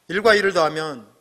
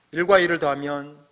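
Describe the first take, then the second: No difference in how they are said.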